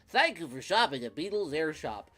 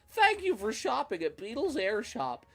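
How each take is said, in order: First: It is said in a voice unlike Beetle's. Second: It is said in Beetle's character voice.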